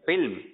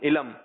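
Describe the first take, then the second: First: It is said in the standard way. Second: It is said in the common local way. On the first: The speaker calls it right. "صحیح ہے علم" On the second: The speaker calls it wrong. "علم یہ چل رہا ہے"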